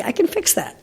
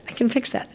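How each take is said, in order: First: Much higher, punchy "can" in "I can fix that"; confident promise. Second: Calm the repeat down; soft reassurance. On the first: Trainer promising her sister she can fix the dog, emphatic. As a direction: sell the promise hard. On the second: Trainer quietly reassuring her sister after the promise. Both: Retold or imitated.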